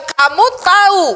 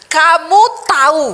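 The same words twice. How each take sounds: First: Higher, louder, slow and drawn out; exasperated wife. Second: Higher and louder, slower reproach; exasperated wife. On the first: Sarah reproaching her husband Abraham, exasperated drawn-out complaint. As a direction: voice a fed-up old wife. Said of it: "Jadi dia bilang". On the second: Sarah telling Abraham about her age, mild exasperated reproach. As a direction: push the words at the husband. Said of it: "ayat itu bilang gini". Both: Retold or imitated.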